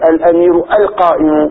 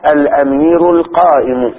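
First: The opening vowel is short, without lengthening. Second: The opening vowel is drawn out into a long vowel. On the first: It sounds like a statement rather than a question. The speaker calls it wrong. "ليس تقول الأمير القائم" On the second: It is asked as a question. The speaker calls it right. "بل وجب إبدال همزة الوصل ألفا"

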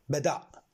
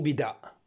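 First: The first vowel is an 'a' sound. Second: The first vowel is not an 'a' sound. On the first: The speaker calls it right. "بالفتح" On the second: The speaker calls it wrong. "مو بداء"

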